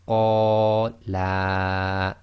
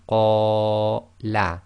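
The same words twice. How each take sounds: First: The final vowel is stretched twice as long. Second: The final vowel is held briefly. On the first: Two men said it. The speaker calls it wrong. "you just stretch the la a bit too long, so you make it twice as long" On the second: One man said it. The speaker calls it right. "if you were to read that properly"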